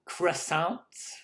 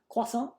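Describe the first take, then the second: First: The word is said with an American pronunciation. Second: The word is said with a French pronunciation. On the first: "here in the States we say croissants" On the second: "I probably even said it wrong in French as well"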